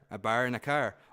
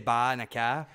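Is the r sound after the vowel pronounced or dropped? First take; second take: pronounced; dropped. First: Said in a Maritime accent with a strong r. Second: Said in a Maine accent without the r.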